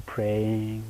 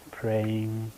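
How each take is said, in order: Both takes have the same delivery.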